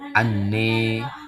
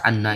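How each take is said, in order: First: The final vowel is tilted toward e. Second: The final vowel is a plain open a. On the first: "dibaca anne ya, dengan imalah kubra" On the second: "pada kata anna ini"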